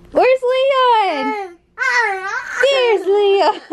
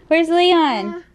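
First: Peekaboo. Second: Said in the usual way. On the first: Real, not acted. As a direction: pop out with a bright surprise. Peekaboo with shirt.

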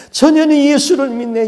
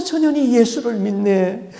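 First: Much higher and louder wailing repeat; the demon howling it louder; louder lament. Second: High wailing line rising at the end; the demon bewailing her faith; lament. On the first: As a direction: let the grief burst out on the repeat. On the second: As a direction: moan it in disbelief. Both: Retold or imitated. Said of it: "막 울면서 통곡을 하는데".

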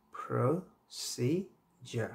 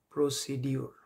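First: Slow careful model of প্রসিজার; correct pronunciation. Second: প্রসিডিউর with a clear "-diur" ending, the common wrong way; wrong-way demo প্রসিডিউর, pro-si-di-ur; wrong pronunciation. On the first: Teacher modelling the correct প্রসিজার, very slowly. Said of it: "এটার সঠিক উচ্চারণ হচ্ছে". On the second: Teacher showing students the wrong প্রসিডিউর. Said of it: "না জেনেই ভুল বলে থাকি". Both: Shown as a demonstration.

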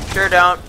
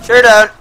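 First: Said in the usual way. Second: Mock retort. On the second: Real, not acted. Mocking teammate, then repeats.

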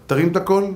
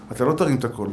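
First: "תרים את הקול" lifted at the end as a question; questioning rise on "הקול"; rhetorical question. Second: "לא תרים את הקול" lower, falling to a close; low falling statement ending on "הקול"; settled answer. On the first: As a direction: ask "תרים את הקול" with a rising tune. Rhetorical question, answered in next line. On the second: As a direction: answer "לא תרים" with a final downward tune. Answers own rhetorical question firmly. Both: Shown as a demonstration.

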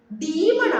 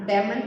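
First: ഡീമൺ raised and louder, with a long ee; right demon, long ee. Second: ഡെമൺ lower, with a short e as "deh-mun"; wrong demon, short e. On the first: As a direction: say ഡീമൺ as "dee-mun", stressed. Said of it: "ഡീമൺ ആണ്, ഡെമൺ അല്ല". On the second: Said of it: "ഡെമൺ അല്ല". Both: Shown as a demonstration.

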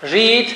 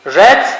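First: Said in the usual way. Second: "read" pronounced like "red", short e; different second-form pronunciation. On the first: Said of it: "Bir ile üç aynı". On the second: Shown as a demonstration. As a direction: say "read" as past-tense "red". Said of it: "ikinci hali farklı okunuyor". ("read" kısa e ile, "red" gibi okunur)

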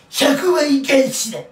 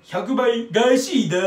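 First: Slow, loud mock catchphrase; failed Hanzawa impression. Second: Drawn-out, louder, stranger take; stranger impression retry. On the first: Vlogger attempts a TV drama impression, loud and slow. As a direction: ham up a TV hero's line, badly. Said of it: "全然ね、モノマネができてない". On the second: Vlogger retries the TV drama line, weirder and slower. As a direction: stretch the catchphrase out oddly. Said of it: "もうちょっと変な、変に言った方が面白い".

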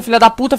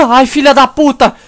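First: Said in the usual way. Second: Loud sudden swear, higher; startled curse. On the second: Real, not acted. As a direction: blurt it out in shock. Jump scare in horror game.

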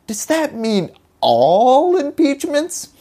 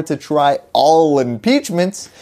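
First: All slowed and pitched much higher; stress on all. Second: Said in the usual way. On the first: Shown as a demonstration. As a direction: lean hard on the word all, slowly. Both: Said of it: "All is a pretty strong word".

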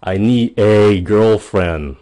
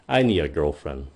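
First: Louder and slow, "a" said as a full "e"; emphatic E. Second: Softer, "a" said as a quick "a"; quick reduced A. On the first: Teacher to viewers, emphatic E version. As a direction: really insist on it. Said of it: "Cái câu "e" nghe nó nhấn mạnh hơn". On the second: Teacher to viewers, quick soft A version. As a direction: toss it off lightly. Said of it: "à". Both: Shown as a demonstration.

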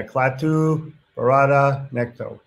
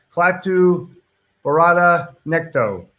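First: Slow deliberate recital. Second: Said in the usual way. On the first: Shown as a demonstration. Repeating the movie quote.

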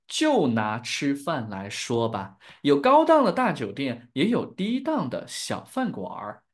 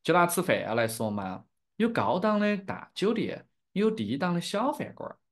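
First: Carefully pronounced standard Mandarin. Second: Chengdu-accented Sichuanese Mandarin; demonstrating a Sichuan dialect accent. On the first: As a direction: teach it in clear standard Mandarin. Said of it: "in standard Mandarin". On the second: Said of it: "in my dialect". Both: Shown as a demonstration.

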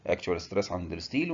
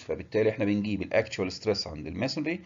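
First: الستيل stressed with a rising tune; stress on steel. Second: الماسونري stressed with a rising tune; stress on masonry. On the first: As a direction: lean on الستيل and lift it at the end. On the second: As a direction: lean on الماسونري and lift it at the end. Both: Shown as a demonstration. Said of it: "teacher contrasts masonry and steel".

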